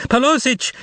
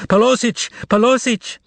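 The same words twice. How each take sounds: First: High, desperate call; desperate cry. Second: High, desperate shout for help; miserable shout. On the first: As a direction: shout it in despair. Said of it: "another desperate cry". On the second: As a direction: cry out miserably to the whole store. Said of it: "the salesgirl shouted out miserably". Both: A narrator's reading.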